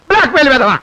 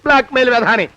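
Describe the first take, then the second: First: Exclaimed abuse, voice raised; loud insult. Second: Said in the usual way. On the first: Acted. Cornered man abusing his blackmailer, loud insult. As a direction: spit the insult out loudly.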